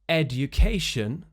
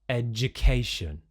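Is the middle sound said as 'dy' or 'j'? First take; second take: dy; j. First: The middle is said with a d plus y sound. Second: The middle is said with a j sound.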